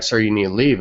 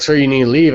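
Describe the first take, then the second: First: Said in the usual way. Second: Higher, louder cop command; insistent retold order. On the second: Cops tell him to leave the party, raised and insistent. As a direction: imitate a cop repeating an order more forcefully.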